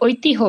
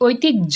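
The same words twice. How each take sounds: First: The middle is said with an h sound. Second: The middle is said with a doubled j sound. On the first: The speaker calls it wrong. "আমরা ঐতিহ্য বলি না" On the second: The speaker calls it right. "আমরা বলি ঐতিহ্য। ... প্রথম জ উচ্চারণ করতে সহজ, পরেরটা কিন্তু অনেক জোরে।"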